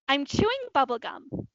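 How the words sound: It is said in a happy tone.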